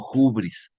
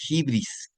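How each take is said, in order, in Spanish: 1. Empieza con sonido h antes de u. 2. Empieza con la vocal i. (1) "unos lo pronuncian como hubris" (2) "también se puede decir de hibris"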